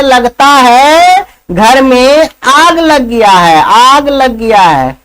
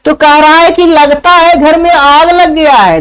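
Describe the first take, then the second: First: Slow, lazy, unbothered; a lazy man barely moving his lips; slow lazy drawl. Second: Said in the usual way. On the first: Acted. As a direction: stretch it out like you can't be bothered to move. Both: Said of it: "दूसरा क्या कहता है".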